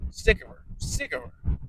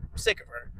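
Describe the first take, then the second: First: Whisper. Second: Said in the usual way. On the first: Real, not acted.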